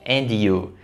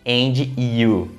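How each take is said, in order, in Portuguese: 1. O D se liga diretamente a you, sem vogal extra. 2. Uma vogal extra forçada é adicionada depois do D. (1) "Não" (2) "Se você colocar um som de I forçado, fica dois sons de I"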